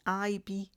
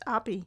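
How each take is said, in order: First: The name begins with an 'eye' sound. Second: The name begins with an 'ab' sound. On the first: The speaker calls it wrong. "I've said it wrong again" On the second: The speaker calls it right. "it's apparently it's pronounced Abby"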